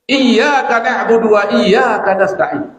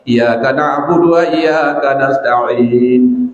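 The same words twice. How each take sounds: First: The 'y' sound in 'iyyaka' is doubled. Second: The 'y' sound in 'iyyaka' is single. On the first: We worship only you, Lord, and ask you for help. The speaker calls it right. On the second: We worship the sun and ask the sun for help. The speaker calls it wrong.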